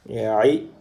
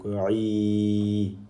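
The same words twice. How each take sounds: First: Said in the usual way. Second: "ri" with the i held long; long vowel. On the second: Shown as a demonstration. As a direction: stretch the i of "ri" on an even note. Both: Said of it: "sert d'outil d'allongement à la voyelle I".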